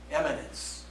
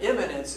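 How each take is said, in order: First: "eminence" beginning with EH; E sound in "eminence". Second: "imminence" beginning with a short IH; I sound in "imminence". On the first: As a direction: say "eminence" softly with an opening EH. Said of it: "eminent with letter E". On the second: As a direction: stress the opening IH of "imminence". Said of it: "But imminence is". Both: Shown as a demonstration.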